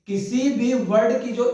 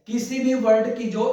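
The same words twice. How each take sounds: The two takes are said the same way.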